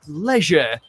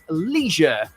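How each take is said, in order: First: It is said the British way, with a short 'e'. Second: It is said the American way, with a long 'ee'.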